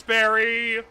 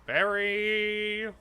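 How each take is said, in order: First: Loud call for Barry; shouting. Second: Sing-song voice. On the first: Pretend. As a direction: yell his name across the dark. Calling out to Barry. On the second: Retold or imitated. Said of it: "saying Barry over, over in sing-song voice".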